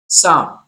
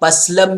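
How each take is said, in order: First: The P and L sounds are both silent. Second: The P and L sounds are both pronounced. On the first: The speaker calls it right. "Right का हुआ साम" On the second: The speaker calls it wrong. "लेकिन ये गलत, wrong pronunciation."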